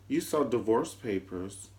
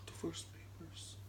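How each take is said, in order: First: Said in the usual way. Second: Breathless whisper of the words Divorce papers. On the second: Shown as a demonstration. Host echoing the scandal, whispered.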